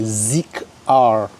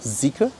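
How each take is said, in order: First: The final R is said as a separate letter. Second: The final R is a plain unstressed ending. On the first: The speaker calls it wrong. "some couldn't pronounce it. They're like" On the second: The speaker calls it right. "but it's called"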